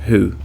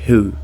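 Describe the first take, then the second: No difference in how they are said.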